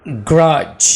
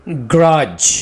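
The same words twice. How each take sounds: The two takes are said the same way.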